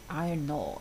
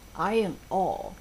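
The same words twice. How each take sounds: First: The two words are linked together. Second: The two words are said separately.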